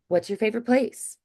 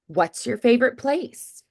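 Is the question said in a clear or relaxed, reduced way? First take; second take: relaxed; clear. First: The words run together with softened sounds. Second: Every sound is said clearly and carefully. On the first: It is a casual way of asking a friend. "if I was going to say it to a friend, I'd probably say" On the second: It is a formal way of asking. "that's a more kind of clear, formal way to say it"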